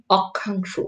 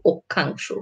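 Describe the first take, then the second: First: অক্ষাংশ with an open ɔ first vowel; অক্ষাংশ read as spelled, ɔkkhangsho; read as written. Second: অক্ষাংশ with an o first vowel, okkhangsho; অক্ষাংশ said the spoken way; spoken pronunciation. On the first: (অক্ষাংশ লিখিত রূপে) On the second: (অক্ষাংশ ও-কারের মতো উচ্চারণে) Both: Shown as a demonstration. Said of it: "যদি ক্ষীয় থাকে তাহলে".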